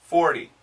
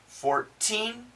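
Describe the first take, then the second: First: Forty said like for-dy; flapped T in forty. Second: Put-on Fourteen with a crisp T and a rising, stressed teen; Fourteen, higher on teen; clear T in Fourteen. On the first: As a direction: stress the for in forty. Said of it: "it's a D sound". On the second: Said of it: "when we talk about teens ... it's a T sound". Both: Shown as a demonstration.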